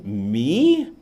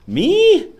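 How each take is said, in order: First: Said in the usual way. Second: Very high, loud squeaky me; mock surprised squeak. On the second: Vlogger answering a viewer asking his name, high mock squeal. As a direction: squeal it like a startled kid.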